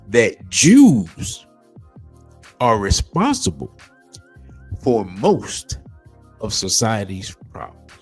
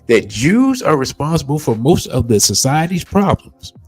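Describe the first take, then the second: First: It is read slowly. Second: It is read at normal speed.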